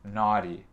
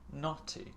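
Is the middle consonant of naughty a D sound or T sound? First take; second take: D sound; T sound. First: The middle T sounds like a soft D. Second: The middle T is a crisp T. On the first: "je prononce le T là euh, avec mon accent américain. C'est avec le son D" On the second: "Avec le T. Anglais"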